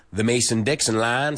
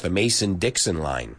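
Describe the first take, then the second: First: Lightly put-on Southern US accent. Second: Said in the usual way. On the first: Shown as a demonstration. Teacher demonstrating speech below the Mason-Dixon line, Southern US accent. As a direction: say it with Southern US vowels. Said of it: "sounds a lot like this".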